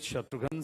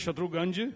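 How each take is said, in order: First: The name ends with a 'ghan' sound. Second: The name ends with a 'ganj' sound. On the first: This is the name as its owner says it. The speaker calls it right. "I said Shatrughan Sinha" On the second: This is how some friends from one region say it. The speaker calls it wrong. "My Punjabi friends still they call me pronounce my name as"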